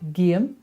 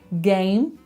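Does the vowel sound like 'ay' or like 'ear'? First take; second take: ear; ay. First: The vowel sounds more like 'ear'. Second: The vowel is a plain 'ay' sound.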